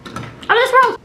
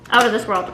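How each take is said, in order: First: Much higher, playful OUT OF THIS WORLD; playful high boast. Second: Said in the usual way. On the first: Pretend. Vlogger boasting about her own intellect, playful high boast. Boast repeated in mock grand voice.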